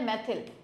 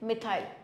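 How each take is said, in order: First: It is said as 'maithil', ending in 'thil'. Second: It is said as 'mithail', ending in 'thile'. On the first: This is the Hindi way of saying it. "Hindi में हो जाएगा आपका मैथिल" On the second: This is the English way of saying it. "English में हो जाएगा मिथाइल"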